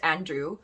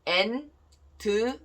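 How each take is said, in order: First: The name has an English pronunciation. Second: The name has a Korean pronunciation. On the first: "It's okay" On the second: "pronounce your name in Korean way"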